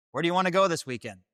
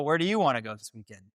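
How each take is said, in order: First: Said in the usual way. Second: "you" lifted, rest falling away; stress on YOU. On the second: Acted. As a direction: bounce it back with weight on "you". Throws the same question back.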